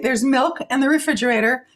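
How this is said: It is said in a neutral tone.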